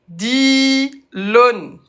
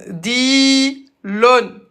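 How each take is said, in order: The two takes are said the same way.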